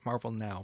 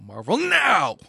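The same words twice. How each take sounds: First: It is said in a plain, flat voice. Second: It is said loudly with excited energy. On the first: The speaker calls it wrong. "Not Marvel Now" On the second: The speaker calls it right.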